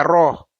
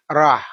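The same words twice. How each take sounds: First: Roh said with a rounded o; wrong pronunciation. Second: Rah said thick with an open a; correct pronunciation. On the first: Teacher contrasting the rounded roh mistake. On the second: Teacher contrasting thick rah against roh. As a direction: say Rah with an open a, not rounded. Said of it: "Bukan roh". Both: Shown as a demonstration.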